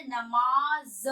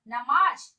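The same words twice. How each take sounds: First: नमाज ending in long buzzing z; very slow नमाज, said namaaz; drawn-out z closing नमाज; nukta नमाज. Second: नमाज ending in j; loud नमाज, said namaaj; undotted j closing नमाज; wrong नमाज. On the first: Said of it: "इसे क्या पढ़ेंगे". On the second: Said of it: "नमाज नहीं". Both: Shown as a demonstration.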